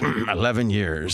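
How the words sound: It is said in a smooth radio-announcer voice.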